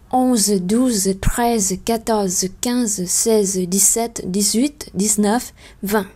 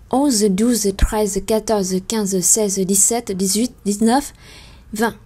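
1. Les nombres sont comptés rapidement. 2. Les nombres sont comptés très rapidement. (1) "và nhanh hơn" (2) "Và lần cuối cùng thì sẽ nhanh hơn nhiều"

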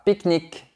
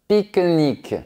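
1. Le E final est muet. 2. Le E final est légèrement prononcé. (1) "et pas pique-nique" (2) "à Toulouse, on a tendance à dire pique-nique"

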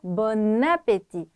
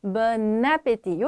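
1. n 소리는 다음 모음으로 연결됩니다. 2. n 소리는 다음 모음으로 연결됩니다.

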